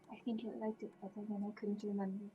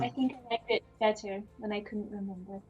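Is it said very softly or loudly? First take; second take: very softly; loudly. First: It is said very softly, almost inaudibly. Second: It is said louder, clearly audible.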